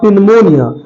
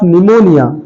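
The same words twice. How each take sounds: First: Pneumonia with the P sounded; wrong pronunciation. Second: Pneumonia with a silent P; correct pronunciation. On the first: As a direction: say pneumonia as "pin-monia". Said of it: "not pneumonia". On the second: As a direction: say pneumonia as "nimonia". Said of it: "this is the correct spelling of pneumonia". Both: Shown as a demonstration.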